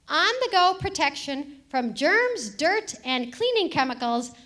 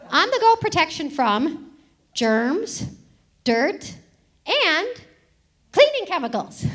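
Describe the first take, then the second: First: The phrase is read at a normal pace. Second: The phrase is read slowly and deliberately.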